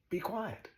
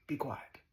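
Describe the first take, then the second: First: "Be quiet." said higher, leaning on "quiet" and falling; lightly lifted teacher's "Be quiet.". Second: Said in the usual way. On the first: Shown as a demonstration. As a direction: sing out "quiet" from above, then drop. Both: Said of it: "That's all the teacher ever says".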